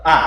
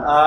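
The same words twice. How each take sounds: First: A clipped short; a quick short A; short vowel. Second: A drawn out long; long vowel. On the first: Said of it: "dipendek dibaca". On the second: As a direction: stretch the A long. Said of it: "dia jadi panjang". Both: Shown as a demonstration.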